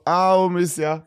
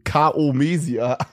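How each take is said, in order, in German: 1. Der Anlaut k wird verschluckt und fällt weg. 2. Der Anlaut k wird klar ausgesprochen. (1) "Das war so" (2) "Ich hätte das vorgelesen"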